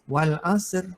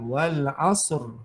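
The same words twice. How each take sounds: First: The r sound is light and thin. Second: The r sound is heavy and full. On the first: The speaker calls it wrong. "kalau nipis" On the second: The speaker calls it right. "kalau tebal"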